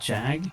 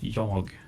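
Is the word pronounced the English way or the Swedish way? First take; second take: English; Swedish. First: The word is pronounced the English way. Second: The word is pronounced the Swedish way. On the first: It is the English word. "in English it would be jag" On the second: It is the Swedish word for me. "the way I would pronounce that is jag"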